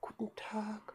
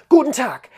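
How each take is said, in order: First: It is spoken very quietly and with low energy. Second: It is spoken loudly and with high energy. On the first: The person seems drained and low on energy. "die Frau Müller redet so ganz leise" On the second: The person seems hurried and full of energy. "da schwingt die Tür auf, da geht so ein Luftzug durch deine gesamte Praxis"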